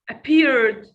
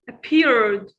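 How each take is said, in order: First: The ending is only a short d sound. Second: The ending is only a short d sound.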